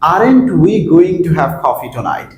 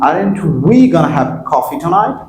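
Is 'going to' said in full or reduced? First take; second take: full; reduced. First: 'Going to' is said as two full words. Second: 'Going to' is reduced to 'gonna'.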